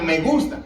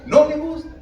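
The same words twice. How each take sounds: First: Said in the usual way. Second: "No" punched higher and louder; stress on NO. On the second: Shown as a demonstration. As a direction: hit "No" hard, the real answer. Pastor contrasts claimed and real feeling. (énfasis fuerte en "No", más agudo y fuerte)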